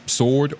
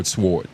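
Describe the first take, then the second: First: SWORD as "sord", slow, no W; silent-W pronunciation. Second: SWORD as "s-word", slow, W heard; sounded-W pronunciation. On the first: Speaker offering both ways to say it, silent-W version. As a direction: say SWORD slowly with the W dropped. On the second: Speaker defending his own way, sounded-W version. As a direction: say SWORD slowly, pronouncing the W. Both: Shown as a demonstration. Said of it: "you can't say s".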